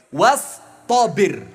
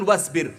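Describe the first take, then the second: First: "wastobir" diucapkan lambat dan keras; drawn-out wastobir. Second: Said in the usual way. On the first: Shown as a demonstration. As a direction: tekankan dan panjangkan "wastobir". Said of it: "ada kalimat lain". ("wastobir" diucapkan panjang dan keras, ditekan) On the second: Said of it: "bukan wasbir".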